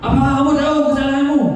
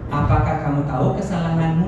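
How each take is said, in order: First: The question sounds harsh and confrontational. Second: The question sounds slow, soft and gentle. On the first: The student feels scolded and threatened. The speaker calls it wrong. "Jangan sampai, ... Mata kita melotot" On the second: The student feels invited to reflect calmly. The speaker calls it right. "ketika kita mengucapkannya dengan pelan"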